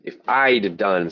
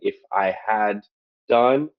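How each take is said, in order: First: The word had is contracted to a d sound. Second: The word had is said in full. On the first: This is what people usually say in conversation. The speaker calls it right. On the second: This is not what people usually say in conversation. The speaker calls it wrong.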